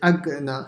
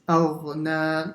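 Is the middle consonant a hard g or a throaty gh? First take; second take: hard g; throaty gh. First: The middle consonant is a hard g sound. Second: The middle consonant is a throaty gh sound. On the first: The speaker calls it wrong. "make sure you don't say agna" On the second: The speaker calls it right. "with a line"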